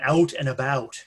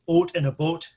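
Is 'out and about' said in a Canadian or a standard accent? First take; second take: standard; Canadian. First: The vowels are round in a standard accent. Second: The vowels are clipped in a Canadian accent. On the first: "Rather than out and about" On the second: "especially on the Canadian"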